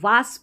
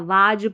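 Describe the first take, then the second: First: It has an open aa vowel and final s. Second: It has an open aa vowel and final z. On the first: "वास पढ़ देते हैं ... जो बिल्कुल गलत है" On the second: "वाज पढ़ देते हैं ... जो बिल्कुल गलत है"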